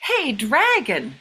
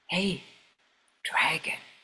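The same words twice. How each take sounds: First: It is shouted very loudly. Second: It is whispered very softly.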